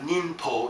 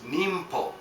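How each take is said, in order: First: An n sound comes before the p. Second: An m sound comes before the p. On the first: The speaker calls it wrong. "it's not ninpo" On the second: The speaker calls it right. "it's nimpo"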